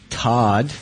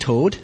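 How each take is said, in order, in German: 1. Der Vokal ist ein offenes 'ah'. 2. Der Vokal ist ein geschlossenes 'oh'. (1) "Es ist T-O-D-D. Todd" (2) "Nicht tot. Ich lebe noch. Aber manche Deutsche sagen tot immer"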